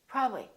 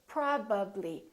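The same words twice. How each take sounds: First: The word is clipped, with sounds dropped. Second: The word is said with every sound articulated. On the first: The speaker calls it wrong. "So don't take any shortcuts. Don't say probably" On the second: The speaker calls it right. "Say probably. Fully move your lips and fully pronounce each sound"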